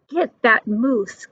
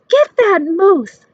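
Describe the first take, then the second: First: Said in the usual way. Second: Shouted higher and louder; a hunter shouting orders; hunter's call. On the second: A narrator's reading. Hunter calls out.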